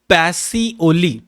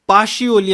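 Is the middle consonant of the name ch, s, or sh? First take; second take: s; sh. First: The middle consonant is an s sound. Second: The middle consonant is an sh sound. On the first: This is how people in our language say it. "आपल्या भाषेत याचं प्रनाऊन्सेशन होते" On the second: This is how people all over the world say it. "All over the वर्ल्डमध्ये पाशिओली असं म्हणतात"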